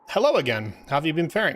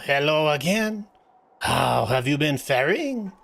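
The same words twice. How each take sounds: First: It is said in the speaker's ordinary accent. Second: It is said in a put-on French accent.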